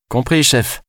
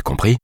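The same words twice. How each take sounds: First: Compris chef lancé plus aigu, en se moquant; moqueur. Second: Said in the usual way. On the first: Acted. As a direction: singer le chef avec ironie. (ton moqueur, plus aigu) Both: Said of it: "se moqua-t-elle".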